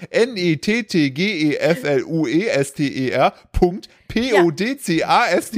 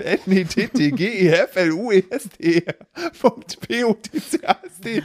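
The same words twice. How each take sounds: First: Letter by letter, slowly spelling N E T T G E F L U E S T E R; each letter of nettgeflüster said slowly and separately. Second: Spelling N E T T G E F L U E S T E R letter by letter while laughing; each letter of nettgeflüster spelled out, laughing at the end. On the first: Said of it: "Ich buchstabiere das mal gerade". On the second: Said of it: "Warte, ich buchstabiere nochmal". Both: Shown as a demonstration.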